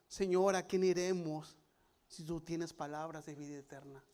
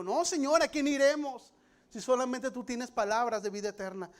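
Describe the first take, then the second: First: Scripture reading. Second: Louder, higher proclaiming of Peter's answer; preached declaration. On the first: Shown as a demonstration. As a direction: read it calmly from the page. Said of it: "read from the Bible". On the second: Retold or imitated. Peter answering Jesus, proclaimed loud and high. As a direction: cry it out as a bold confession.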